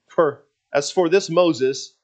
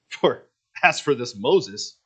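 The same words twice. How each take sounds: First: It is said with subtle, barely noticeable sarcasm. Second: It is said with strong, obvious sarcasm.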